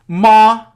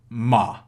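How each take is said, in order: First: The syllable carries the first tone. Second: The syllable carries the third tone.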